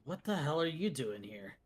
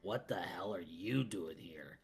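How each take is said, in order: First: It is said with a surprised tone. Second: It is said in a blunt, direct tone. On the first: The speaker is shocked to see the person. "it's a surprise, ... He would say it like that" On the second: The speaker is bluntly demanding an explanation. "Hijikata's more straightforward"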